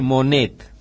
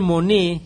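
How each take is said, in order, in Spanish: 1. El nombre se dice con pronunciación al estilo español. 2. El nombre se dice con pronunciación francesa. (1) "me queda más a mano decirle, tal vez incorrectamente, Monet" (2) "Debe ser Monet"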